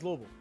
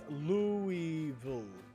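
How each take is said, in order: First: The syllables are sped up and slurred together. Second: Every syllable is said fully and carefully. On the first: "when you say it faster, it becomes Louisville" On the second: "it's Louisville"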